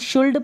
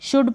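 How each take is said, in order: First: The L sound is pronounced before the D. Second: The L sound is silent before the D. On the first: The speaker calls it wrong. "शुल्ड पढ़ा है तो गलत पढ़ा है आपने" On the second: The speaker calls it right. "शुड पढ़े इसको"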